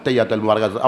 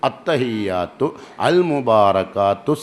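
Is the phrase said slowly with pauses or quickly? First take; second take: quickly; slowly. First: It is said quickly, words run together. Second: It is said slowly, pausing between words. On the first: "സ്പീഡിൽ വന്നപ്പോൾ റെഡിയായി" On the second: "നിർത്തി നിർത്തിയിട്ട് പറയാൻ പറഞ്ഞു"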